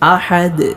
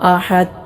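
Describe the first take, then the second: First: The final d is released with an echoing bounce. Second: The final d is stopped flat without bounce. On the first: The speaker calls it right. "അൽഖല അഥവാ ചലനശബ്ദം എന്ന സിഫത്ത് കൊടുത്തുകൊണ്ടാണ് ഓതേണ്ടത്" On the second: The speaker calls it wrong. "ഇങ്ങനെയല്ല ഓതേണ്ടത്"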